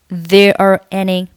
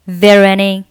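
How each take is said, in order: First: The words are said separately without linking. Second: The words are run together into one linked chunk. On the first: "你也可以选择不连读" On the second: "如果连读"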